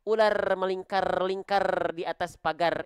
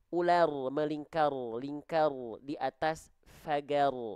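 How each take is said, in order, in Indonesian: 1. Bunyi r digetarkan dengan banyak getaran. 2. Bunyi r digetarkan dengan sedikit getaran. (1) "Kalau getaran huruf R kan banyak memang" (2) "Huruf ro itu dia getarannya sedikit"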